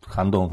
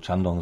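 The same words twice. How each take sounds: First: Shandong with the first sound as spelt Sh; alternative pronunciation. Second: Chandong with the first sound as spelt Ch; alternative pronunciation. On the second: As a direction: say Chandong as the second variant. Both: Shown as a demonstration. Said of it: "záleží na tom, jak to vyslovíme".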